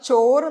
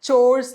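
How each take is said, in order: First: The word ends in a vowel, no final z. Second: The word ends with a clear z sound. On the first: The speaker calls it wrong. "അത് ചോറ് എന്നല്ല" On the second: The speaker calls it right. "ചോഴ്സ് എന്നാണ്"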